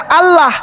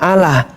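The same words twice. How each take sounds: First: It is said with Arabic articulation of the sounds. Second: It is said as read from Latin letters. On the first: The speaker calls it right. "Harusnya Allah, A L L A H, dibaca Allah" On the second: The speaker calls it wrong. "Orang Kristen membacanya Allah"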